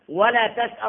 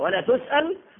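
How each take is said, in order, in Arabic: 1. يبدأ الفعل بصوت 'ta'. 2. يبدأ الفعل بصوت 'tu'. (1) "بالفتح ده نهي" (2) "يبقى ده اسمه خبر"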